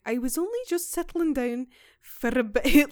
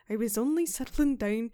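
First: A hint of a rural Irish accent, louder; quoting the woman in a shaky Irish accent. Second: Put-on slipping into a light Scottish accent; the Irish attempt drifts Scottish. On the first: Podcaster quoting the old Irish housekeeper, light Irish accent. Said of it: "I struggle with this accent because it sounds Scottish to me". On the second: Podcaster admits the quote came out Scottish, light Scottish accent. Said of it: "No, that's Scottish".

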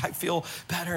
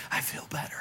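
First: Said in the usual way. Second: Soft unvoiced whisper, barely there; faint whispered relief. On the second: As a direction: breathe it out weakly. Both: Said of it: "she's saying it in a whisper".

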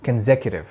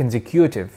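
First: Consecutive said as kon-SEK-yu-tiv, no extra vowel; correct pronunciation. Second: Consecutive said with an added oo vowel, kon-se-KOO-tiv; wrong pronunciation. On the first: Teacher showing students the right consecutive, careful correct pronunciation. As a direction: say consecutive cleanly, without the added u sound. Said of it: "كلمة consecutive معناها متواصل". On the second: Teacher demonstrating the common learner mistake, deliberate mispronunciation. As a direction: mispronounce consecutive by stretching in an extra u. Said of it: "لأن أنت ضفت واو consecutive".

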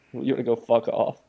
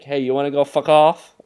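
First: Lightly voiced Boston "wanna go fuck off"; a milder retake of the Boston line; relaxed mock Boston, near the speaker's own voice; Boston accent. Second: Loud, higher mock Boston "wanna go fuck off"; loud Boston heckle, hammed up; mock Boston tough guy. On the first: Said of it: "someone from Boston said that to him". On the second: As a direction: bark it like a Boston local picking a fight. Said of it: "So, like".

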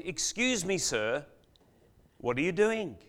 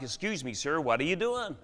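First: Said in the usual way. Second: Lightly imitated Boston accent; attempted Boston accent. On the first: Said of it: "I guess he says it in a Boston accent". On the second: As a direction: have a rough go at a Boston accent. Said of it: "he says it in a Boston accent that I can't, uh, mimic very well".

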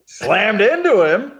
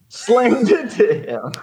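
First: Lightly imitated deadpan comic, higher and slower; a touch of Norm Macdonald's drawl; mild Norm Macdonald impression. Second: Lightly imitated deadpan comic, higher and slower; a hint of Norm Macdonald's drawl; mild Norm Macdonald impression. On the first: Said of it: "That's my Norm Macdonald". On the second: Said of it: "Norm Macdonald voice".

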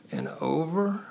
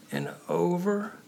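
Both takes have the same delivery.

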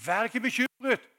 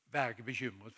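First: Loud, high proclamation; emphatic command. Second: Said in the usual way. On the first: Acted. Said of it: "Han sier". (høy, kraftfull formaning) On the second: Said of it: "Han sier ikke det at".

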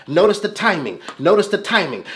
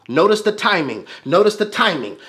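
Both takes have the same delivery.

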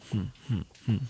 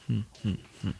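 The two takes are said the same way.

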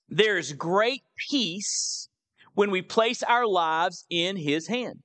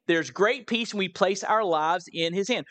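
First: Slow emphatic point with drawn-out "great peace"; slow, deliberate. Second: Said in the usual way. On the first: Real, not acted. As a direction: state the key point slowly, pausing after "peace". Reads the note's point out slowly.

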